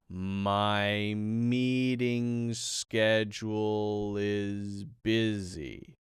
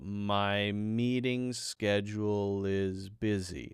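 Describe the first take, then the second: First: The sentence is said slowly and deliberately. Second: The sentence is said at normal, quick speed.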